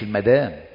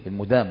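First: The word is said as al-madam. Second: The word is said as al-mudam. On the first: The word means a wife. The speaker calls it wrong. "صدقوا ده مدام تروح تقتلها" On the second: The word means wine. The speaker calls it right. "المدام يعني الخمر"

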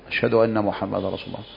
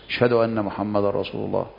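No difference in how they are said.

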